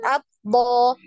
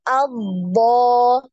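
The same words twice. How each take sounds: First: The consonant sound is cut off abruptly. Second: The consonant sound flows on and is held. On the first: The speaker calls it wrong. "Jadi tidak langsung albo" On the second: The speaker calls it right. "tapi albo"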